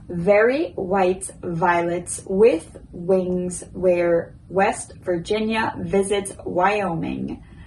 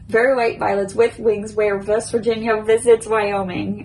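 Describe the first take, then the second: First: It is said at a slow pace. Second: It is said at a very fast pace. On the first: "First slow" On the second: "now I will try to do my quickest"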